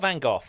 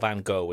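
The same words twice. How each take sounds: First: The name is said in a non-American way. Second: The name is said in the American way.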